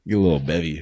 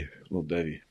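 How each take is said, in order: First: Louder, relishing the words; eager call for a drink. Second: Much softer, murmured repeat to himself; soft echo. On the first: Savoring a Wendy's drink. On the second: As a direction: let it drop to a pleased murmur. Repeating the drink phrase softly. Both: Real, not acted.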